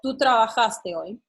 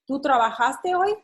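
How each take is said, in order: First: It ends with falling statement intonation. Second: It ends with rising question intonation.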